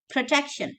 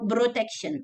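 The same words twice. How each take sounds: First: It starts with a breathy, voiceless P sound. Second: It starts with a voiced B sound. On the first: The speaker calls it right. "pro, pro, protection" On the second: The speaker calls it wrong. "not bro"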